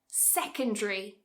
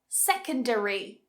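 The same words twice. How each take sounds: First: It is said with three syllables. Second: It is said with four syllables. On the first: "Cut a syllable" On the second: "four syllables"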